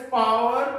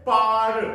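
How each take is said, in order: First: "power" with a clear w sound, pa-wer; two-syllable "power". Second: "पार" as one long, loud paar; one-syllable "पार". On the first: Teacher shows pupils the reading to avoid, two-syllable "power". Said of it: "we will not pronounce this word as". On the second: Teacher models the word for pupils, one-syllable "पार". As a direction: draw out "पार" with no w sound. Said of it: "we will pronounce this word as". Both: Shown as a demonstration.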